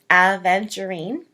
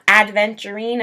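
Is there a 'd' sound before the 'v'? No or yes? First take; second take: no; yes. First: No 'd' sound comes before the 'v'. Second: A 'd' sound comes before the 'v'. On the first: The speaker calls it right. "but it's aventurine" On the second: The speaker calls it wrong. "it's not adventurine. I know a lot of people pronounce it that way"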